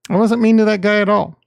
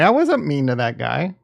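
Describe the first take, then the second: First: Louder, fast, emphatic denial; insistent protest. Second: Said in the usual way. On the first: Real, not acted. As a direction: push back hard on the accusation.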